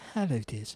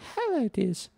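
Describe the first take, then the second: First: It is said in a lower-pitched voice. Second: It is said in a higher-pitched voice.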